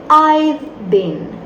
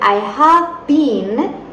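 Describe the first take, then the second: First: 'Have' is shortened and joined onto 'I'. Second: 'Have' is said as a separate full word. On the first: "podemos abreviarlo y decir" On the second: "En vez de decir I have been"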